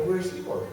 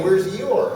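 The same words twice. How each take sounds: First: Worried, softly voiced question; hushed fretting over a lost toy; mock panic. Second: Mild mock yell; half-voiced frantic shout; retold yelling. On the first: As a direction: ask in mild comic panic. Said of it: "I panicked, and I was, like, really upset". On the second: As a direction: call out, upset, retelling a yell.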